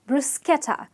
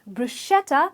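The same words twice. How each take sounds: First: The middle 'ch' is said as k. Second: The middle 'ch' is not said as k. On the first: The speaker calls it right. "It's actually bruschetta" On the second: The speaker calls it wrong. "not bruschetta as one would say it"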